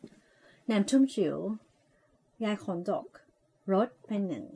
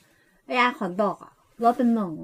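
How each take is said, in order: First: Slow, soft and mumbled like a cool VJ; soft slurred VJ read of the sausage slogan; lazy VJ voice. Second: Put-on slow, sweet girly read with a changed timbre; playful cutesy take on the sausage ad line. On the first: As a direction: slur the slogan like a laid-back radio VJ. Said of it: "ทำเสียงแบบที่เขาชอบแบบเป็น V เอา วีเจ". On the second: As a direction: coo the slogan like a cute young girl. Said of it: "เสียงแบบก้อยๆหน่อย". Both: Shown as a demonstration.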